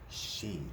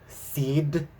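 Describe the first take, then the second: First: It starts with sh and has no final d. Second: It starts with s and ends with d. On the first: The speaker calls it right. "but it's just she" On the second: The speaker calls it wrong. "I was like"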